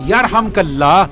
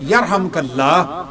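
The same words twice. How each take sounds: First: یرحمک Allah said firmly as a cue; louder prompt. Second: یرحمک Allah drawn out slowly and clearly; slow teaching demo. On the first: Preacher cues the audience to repeat, louder. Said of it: "کہیں،". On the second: Preacher teaches the listener's reply, slowly and clearly. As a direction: say یرحمک Allah slowly so they can repeat it. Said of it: "اور سننے والا کیا کہے گا". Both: Shown as a demonstration.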